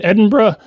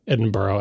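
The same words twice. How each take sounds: First: Edinburgh as "Edin-bruh"; accepted pronunciation. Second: Edinburgh ending like "burrow"; American mispronunciation. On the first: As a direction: end Edinburgh in a quick "bruh". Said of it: "make sure we say". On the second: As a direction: put an "oh" on the end of Edinburgh. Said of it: "it's definitely not". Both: Shown as a demonstration.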